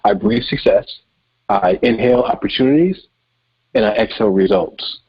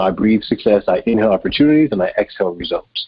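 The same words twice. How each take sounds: First: It is said more slowly and clearly. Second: It is said at a normal pace.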